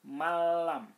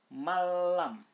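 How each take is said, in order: Both takes have the same delivery.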